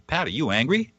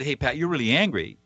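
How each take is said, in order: First: "Pat, are you angry?" asked with a light rising question tune. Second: "Hey, Pat, you're really angry" stated with a falling tune; stated, not asked. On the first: Coach shows the wrong way, asking Pat a question. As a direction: ask whether Pat is angry, lifting at the end. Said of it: "the second thing that you don't do is you don't ask a question". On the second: Coach shows the right way, a plain statement to Pat. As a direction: tell Pat what he feels, closing down flat. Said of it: "I said". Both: Shown as a demonstration.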